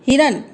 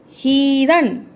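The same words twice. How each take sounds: First: हिरन with a quick short hi; short hiran. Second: हिरन with the hi stretched long; long hiran. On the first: Teacher gives the right short हिरन to the class. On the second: Teacher shows the wrong long हिरन to children. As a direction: draw out हि in हिरन. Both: Shown as a demonstration. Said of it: "हिरन नहीं बोलेंगे".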